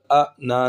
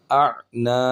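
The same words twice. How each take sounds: First: "اع نا" with a glottal stop replacing the ayn; hamza for ayn. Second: "اعنا" with a voiced throat ayn before long naa; clear ayn. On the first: Teacher showing the mistake, "اع نا" read as a-naa with hamza. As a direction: cut "اع نا" with a hamza catch. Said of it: "حمزہ نہیں پڑھیں گے دوسرے والا". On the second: Teacher modelling the letter, "اعنا" with distinct throaty ayn. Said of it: "عین کی آواز صحیح واضح کر کے". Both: Shown as a demonstration.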